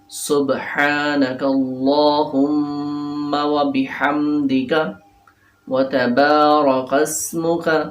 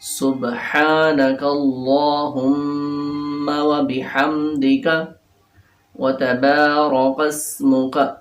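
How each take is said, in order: The two takes are said the same way.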